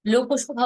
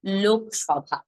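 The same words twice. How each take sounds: First: লোকসভা said as lokoshɔbha; wrong take of লোকসভা. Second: লোকসভা said as lokshɔbha; correct pronunciation. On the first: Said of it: "বলে ফেলি". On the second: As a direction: say লোকসভা with no vowel after লোক. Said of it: "উচ্চারণটা হবে". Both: Shown as a demonstration.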